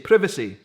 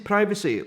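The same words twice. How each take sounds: First: It is said with the English-style pronunciation. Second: It is said with the American-style pronunciation. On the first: "in particular England, would say privacy" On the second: "In Scotland, we say privacy, like you guys would say it"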